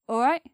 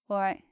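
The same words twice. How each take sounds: First: It sounds like a question. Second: It sounds like a statement, not a question. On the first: It works as a greeting that asks how someone is. "sounds like more of a question" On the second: It works as a greeting given back in reply. "sometimes doesn't sound like a question"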